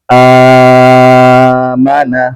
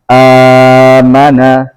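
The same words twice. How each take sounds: First: The opening long vowel is held six counts. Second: The opening long vowel is held four counts.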